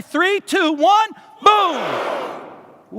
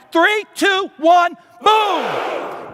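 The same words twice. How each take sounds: First: Countdown shout. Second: Higher, louder countdown exploding into boom; all-out shout. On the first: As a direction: lead the crowd into a big shout. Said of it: "So let's try it". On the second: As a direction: shatter the room with the boom. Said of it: "I need you to yell, "Boom," so loud". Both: Real, not acted.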